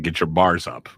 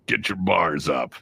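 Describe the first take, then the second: First: Said in the usual way. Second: Slow drawn-out hype line; mixtape voice line. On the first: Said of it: "The song was Get Your Bars Up". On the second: Retold or imitated. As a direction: stretch it slow like a mixtape drop. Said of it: "my random voice going".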